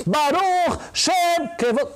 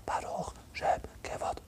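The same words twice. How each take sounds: First: Baruch Shem Kevod chanted high and loud, slowly. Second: Baruch Shem Kevod whispered, slow, without voice. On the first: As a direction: proclaim the line aloud, drawn out and high. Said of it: "a gente faz a Baruch Shem Kevod Malchuto alto". (dito em voz alta, agudo e lento) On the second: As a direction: breathe the line like a secret. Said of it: "vamos falar baixo". (Baruch Shem Kevod sussurrado, lento e sem voz) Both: Retold or imitated.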